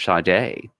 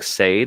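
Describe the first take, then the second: First: The name is said in its real pronunciation. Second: The name is read the way it is spelled. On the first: The speaker calls it right. "it's actually pronounced Sade" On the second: The speaker calls it wrong. "it is spelled like Sade"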